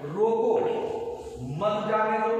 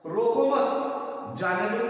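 First: रोको alone, a clear pause, then मत जाने दो run together; pause after रोको. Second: रोको मत joined slowly, a break, then जाने दो; pause after मत. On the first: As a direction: stop after रोको, keep मत joined to जाने दो. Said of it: "जैसे पहला है". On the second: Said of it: "दूसरा वाक्य है". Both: Shown as a demonstration.

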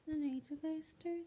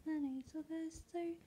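No difference in how they are said.

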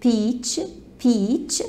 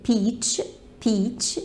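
The two takes are said the same way.

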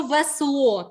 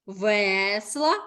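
First: Весло with the final о stressed; весло, slow, weight on the closing о. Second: Весла with a drawn-out е in the first syllable; весла, first syllable stressed, ending light; stress on root Е. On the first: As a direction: lean on the last syllable of весло, slowly. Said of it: "то наголошена о". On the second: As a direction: lean on the е of весла. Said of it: "наголошена е у корені". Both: Shown as a demonstration.

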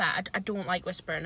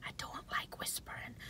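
First: Said in the usual way. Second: Very soft unvoiced whisper. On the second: Shown as a demonstration. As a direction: hush it down to a breathy whisper. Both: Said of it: "Don't whisper".

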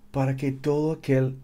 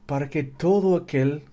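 The two takes are said the same way.

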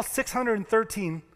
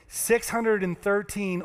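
First: Said in the usual way. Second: Six hundred and thirteen said slowly, each number weighted; slow it right down on six hundred and thirteen; slow emphatic repeat. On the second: Shown as a demonstration. Preacher repeating the number slowly for the congregation. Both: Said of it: "let me say that again".

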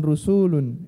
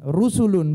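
First: "rusulun" with the su drawn out; wrong long vowel. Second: "Rusulun" with every vowel short; correct short vowels. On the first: Teacher shows students the mistake, lengthened "suu" in "rusulun". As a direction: stretch the middle of "rusulun" into rusuulun. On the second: Teacher models the right word for students, short-vowel "Rusulun". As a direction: say "Rusulun" evenly, no long su. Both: Shown as a demonstration. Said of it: "bukan rusulun".

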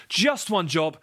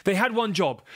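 First: Just stressed high and slow. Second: Had stressed with a falling tune. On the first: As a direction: lean on just in just one job. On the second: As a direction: lean hard on had in had one job. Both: Real, not acted. Emphatic repeat.

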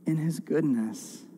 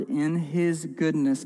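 First: Said in the usual way. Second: Goodness leaned on, slower; stress on goodness. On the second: Shown as a demonstration. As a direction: dwell on the word goodness, drawn out. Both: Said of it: "I want to emphasize that word".

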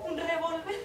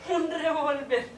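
First: Rising, disbelieving echo; incredulous question. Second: Slow, weighed statement of the word; slow flat repeat. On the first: Woman on the phone echoing her lover's word in disbelief. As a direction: repeat it back as if you can't believe it. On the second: Woman on the phone repeating her lover's word slowly. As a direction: let the word sink in slowly. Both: Acted.

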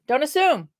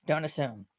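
First: "assume" leaned on, falling at the end; stress on assume. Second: "Don't assume" dropped much softer and lower; soft repeat. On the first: Teaching her viewers, stressing "assume". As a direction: land the word "assume" as a warning. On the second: Telling viewers the lesson again, softly. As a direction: let "Don't assume" sink in quietly. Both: Shown as a demonstration. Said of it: "lesson one".

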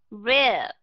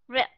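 First: "rip" drawn out long, like "rib"; long vowel. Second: "rip" with a very short vowel; quick "rip", stopped at the p. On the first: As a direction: stretch the vowel of "rip" before a b. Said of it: "từ nào đọc dài". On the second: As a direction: cut "rip" short on closed lips. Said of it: "từ nào đọc ngắn". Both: Shown as a demonstration.

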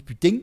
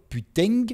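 First: "putain" ending in a stopped velar ng, "putèng"; Marseille putain. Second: Said in the usual way. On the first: Shown as a demonstration. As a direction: Marseille "putain", the g begun but held back. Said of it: "on dit". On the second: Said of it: "au lieu de dire".

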